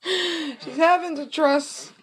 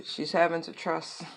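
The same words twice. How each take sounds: First: High, slow, laughing drawn-out line; laughing stretch. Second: Said in the usual way. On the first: Shown as a demonstration.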